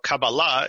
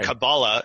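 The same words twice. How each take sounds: First: It is said with a Hebrew pronunciation. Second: It is said with a Yiddish pronunciation. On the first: "the way you'd say it in Hebrew" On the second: "how you would say it in Yiddish"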